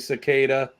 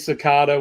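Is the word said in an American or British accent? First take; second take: American; British. First: It is said in an American accent. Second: It is said in a British accent. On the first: "we say" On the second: "You say"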